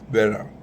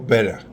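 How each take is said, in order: First: It is said in an American accent. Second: It is said in an African accent.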